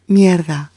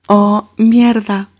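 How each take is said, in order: First: Said in the usual way. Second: "mierda" drawn out slow and a bit higher; slow emphatic. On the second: Shown as a demonstration. Teacher introducing "mierda" slowly with emphasis. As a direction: present "mierda" slowly as the new word. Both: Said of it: "M I E R D A".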